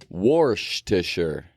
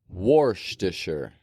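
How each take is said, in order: Both takes have the same delivery.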